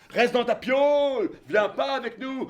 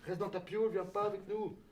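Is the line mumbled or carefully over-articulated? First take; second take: over-articulated; mumbled. First: Each word is pronounced with exaggerated careful articulation. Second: The words are run together without careful articulation. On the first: "est-ce que tu peux articuler" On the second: "Il articule pas"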